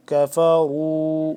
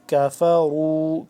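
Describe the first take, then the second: First: Slow كَفَرُوا with a full heavy ر. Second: Slow كَفَرُوا with a thin light ك; thin kaf. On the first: Teacher demonstrating the heavy ra to students, slow recitation. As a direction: fill out the ر of كَفَرُوا. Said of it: "را کا پر". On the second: Teacher teaching students the thin kaf, slow careful recitation. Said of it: "یہ والا کاف باریک پڑھا جاتا ہے". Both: Shown as a demonstration.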